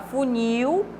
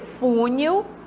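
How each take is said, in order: First: The stress is on the last syllable. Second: The stress is on the first syllable. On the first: The speaker calls it right. "é uma oxítona terminada em L" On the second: The speaker calls it wrong. "dessa palavra não é aceitável"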